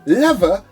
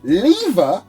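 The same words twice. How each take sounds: First: The word is said in an American way. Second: The word is said in a non-American way.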